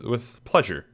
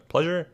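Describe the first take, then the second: First: Said in the usual way. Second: Higher, questioning pleasure? as if unsure it fits; second-guess the word pleasure?, pitch rising on it; doubting own word. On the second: Real, not acted. Vlogger doubts his own word choice, questioning pleasure?. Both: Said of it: "I don't know if I said the right word there".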